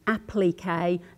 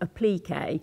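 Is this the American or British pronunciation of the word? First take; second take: British; American. First: It is said with a British pronunciation. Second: It is said with an American pronunciation. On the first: "if you're talking to an English person ... they're doing applique" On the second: "which actually you pronounce applique"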